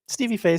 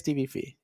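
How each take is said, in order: First: The surname has the vowel of 'day'. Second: The surname has the vowel of 'see'.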